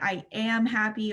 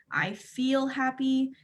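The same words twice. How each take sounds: First: "am" punched as the word to avoid; stress on am. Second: "feel" stretched in a slow model phrase; stress on feel. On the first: Showing wording to avoid, stress on "am". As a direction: lean firmly on "am". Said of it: "It's a very small difference". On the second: Teaching emotional language, stress on "feel". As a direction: spell it out slowly, leaning on "feel". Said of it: "the language ... is to say". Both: Shown as a demonstration.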